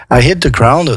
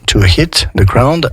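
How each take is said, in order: First: "hit" said with a clear breathy H; sounded H. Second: "hit" with a clearly breathed H at the start; sounded H in hit. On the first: Teacher modelling the H for French learners. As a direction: make the H in "hit" heard. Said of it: "on prononce tous les H". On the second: Teacher showing students the sounded H in "hit". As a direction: push air on the H of "hit". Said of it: "Vous entendez, je fais le H". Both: Shown as a demonstration.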